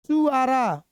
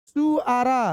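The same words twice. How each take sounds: The two takes are said the same way.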